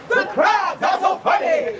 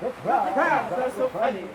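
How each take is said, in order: First: It is said with big, exaggerated energy. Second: It is said with mild, small energy.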